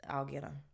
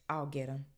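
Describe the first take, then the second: Both takes have the same delivery.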